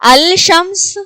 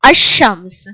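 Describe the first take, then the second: First: The l sound is pronounced before the sh. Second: The l is dropped and the sh is doubled. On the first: The speaker calls it wrong. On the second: The speaker calls it right.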